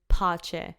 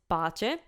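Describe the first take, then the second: First: The P has a strong puff of air. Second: The P has almost no puff of air. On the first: The speaker calls it wrong. "with an English P, it would be pace" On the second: The speaker calls it right. "in Italian it's pace"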